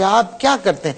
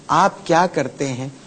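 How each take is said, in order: First: It is shouted loudly and harshly. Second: It is asked sweetly and affectionately.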